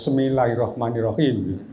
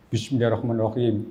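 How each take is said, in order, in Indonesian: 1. Frasa ini dimulai dengan bunyi 'se' seperti anak kecil. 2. Frasa ini dimulai dengan bunyi 'bis' yang jelas. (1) "bismillahnya nggak bisa apa saya namanya anak ya" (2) "diajari gimana bismillah itu"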